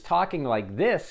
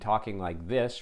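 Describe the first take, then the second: First: It sounds warm, spoken with a smile. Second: It sounds flat, like reading a script.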